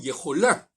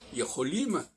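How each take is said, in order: First: The word ends with an n sound. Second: The word ends with an m sound. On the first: This is how the writing system says it should be. "on dit pas nous yecholin, comme on devrait le dire" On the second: This is how people actually say it. "yecholim, c'est nous pouvons"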